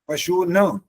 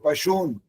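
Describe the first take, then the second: First: The final n is followed by a full vowel. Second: The final n is bare, with no vowel after it. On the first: The speaker calls it wrong. "ये बोलने पर अशुद्ध हो जाता है" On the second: The speaker calls it right. "ये वाला है"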